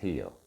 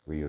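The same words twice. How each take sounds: First: It starts with a breathy H-like sound. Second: It starts with an English R sound. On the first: "in Portuguese, you don't pronounce the R" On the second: "as we say in English"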